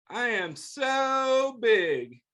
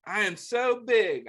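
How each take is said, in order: First: Slow, drawn-out "so big"; stretched big. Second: Said in the usual way. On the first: Acted. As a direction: draw out "so" slowly to show bigness. Drawn-out book line.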